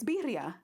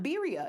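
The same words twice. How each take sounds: First: The R is strongly rolled. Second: The R is plain, not rolled. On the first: The speaker calls it right. "it's two R's and it's in Spanish. You should know how to roll your R's" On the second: The speaker calls it wrong. "It's not birria"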